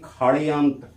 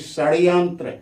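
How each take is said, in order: First: The word begins with a 'kh' sound. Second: The word begins with an 'sh' sound. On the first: This is how the word is read aloud. "पढ़ते हैं खड़यंत्र" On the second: This is how the word is written. "लिखते हैं षड्यंत्र"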